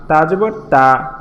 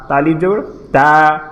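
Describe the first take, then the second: First: Said in the usual way. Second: Final "তা" lengthened and even; drawn-out final "তা". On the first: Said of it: "আমরা আগে পড়েছিলাম". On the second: Shown as a demonstration. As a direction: stretch the last "তা" to a long held aa. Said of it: "টেনে পড়ব". (শেষের "তা" টেনে পড়া)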